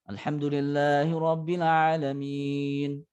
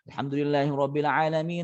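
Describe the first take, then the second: First: It is recited at a relaxed, moderate pace. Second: It is recited quickly. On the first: "ada yang pertengahan namanya tadwir atau tawassut" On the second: "Cepat tapi makhraj dan tajwidnya masuk"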